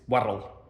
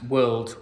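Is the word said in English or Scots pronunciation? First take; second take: Scots; English. First: It has a Scots pronunciation without the final d. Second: It has a standard English pronunciation with clear final d.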